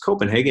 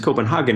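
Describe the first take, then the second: First: The name is pronounced the English way. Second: The name is pronounced the German way. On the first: "if you want the English mispronunciation" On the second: "if you want the German mispronunciation"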